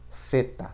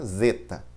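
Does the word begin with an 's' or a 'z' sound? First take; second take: s; z. First: It begins with an 's' sound. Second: It begins with a 'z' sound. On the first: The speaker calls it right. "ela sempre terá som de S ... mas a gente falará" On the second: The speaker calls it wrong. "Ela nunca terá som de Z ... a gente não falará nunca"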